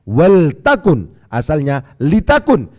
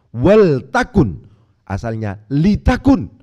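The two takes are said the same way.

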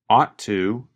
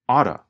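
First: The T sound is clearly pronounced. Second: The T sound is reduced into oughta. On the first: "You can hear him pronounce the letter T" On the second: "the pronunciation changes when we talk faster. Ought to changes to oughta"

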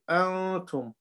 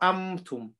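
First: The n is hidden and sounded through the nose. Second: The n is turned into an m sound. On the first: The speaker calls it right. "We take the sound to the nose" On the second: The speaker calls it wrong. "not amtum"

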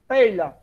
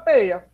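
First: The middle sound is a palatal lh consonant. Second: The middle sound is a simple i glide.

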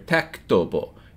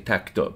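First: The word ends with a short u vowel. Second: The word ends on the consonant b. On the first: This is the formal full form. "it has this little dhamma at the end" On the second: This is the everyday spoken form. "We just say tektob"

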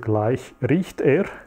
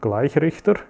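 First: It is three words with a long middle vowel. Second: It is one word with a short middle vowel. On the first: It will start to smell quite soon. "if you pronounce it a little bit different" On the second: It names a rectifier. "Rectifier in German"

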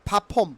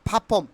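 First: It starts with a breathy, aspirated p sound. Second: The same.

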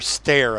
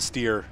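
First: The name rhymes with 'bear'. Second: The name rhymes with 'beer'. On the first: "Stare is the way they pronounce it from what I've heard English people saying" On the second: "I want to get the steer"

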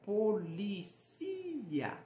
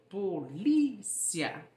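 First: The stress falls on a syllable other than li. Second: The stress falls on the syllable li. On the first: This is the Spanish pronunciation. "no espanhol, existe a mesma palavra, mas ela é pronunciada como policía" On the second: This is the Portuguese pronunciation. "No português, a sílaba tônica é o li"

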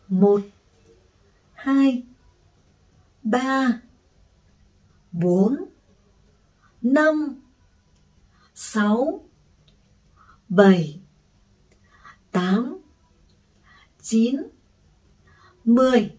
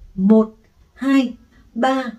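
First: The numbers are counted at a slow pace. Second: The numbers are counted at a fast pace. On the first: "[name] sẽ hướng dẫn bài tập đếm số như sau" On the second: "Tăng tốc độ lên"

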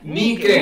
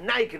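First: Nike is pronounced as spelled in Spanish. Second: Nike is pronounced the English way. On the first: The speaker calls it right. "no, compra zapatillas Nike" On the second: The speaker calls it wrong. "Si uno quiere comprar zapatillas Nike"

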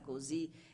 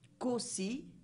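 First: The S between the vowels is voiced. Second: The S between the vowels is voiceless. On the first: This follows the general rule and is now acceptable. "possiamo tranquillamente dire anche" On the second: This follows an old traditional norm. "pronunciate come vedete con una S aspra"

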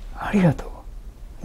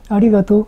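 First: The thanks sounds deeply sincere and felt. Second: The thanks sounds light and offhand. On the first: The speaker calls it right. "体の心の底からあやってみせるからね" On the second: The speaker calls it wrong. "そうじゃなくて"

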